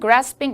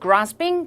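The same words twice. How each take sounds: First: It is said with an American accent. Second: It is said with a British accent.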